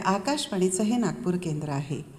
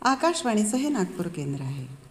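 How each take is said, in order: First: The final word is pronounced fully and clearly. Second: The final word is swallowed and barely audible. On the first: The speaker calls it right. "ह पूर्ण ऐकायला जातो आहे की नाही" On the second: The speaker calls it wrong. "आहे कुठे?"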